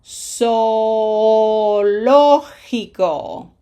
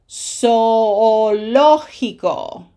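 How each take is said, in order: First: Zoológico very slow, the double o split apart; Zoológico with a small break between o and o; stuttered vowels. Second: Zoológico slow, the oo held a bit longer; Zoológico again, the double o drawn out; second model take. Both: Shown as a demonstration. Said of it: "a bit of a stutter".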